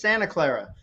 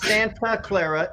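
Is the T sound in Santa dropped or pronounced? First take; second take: dropped; pronounced. First: The T in Santa is dropped. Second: The T in Santa is clearly pronounced. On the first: The speaker calls it right. "we don't say our T's" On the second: The speaker calls it wrong. "It's not"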